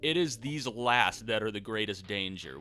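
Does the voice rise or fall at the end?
fall. It ends with a falling, statement tune.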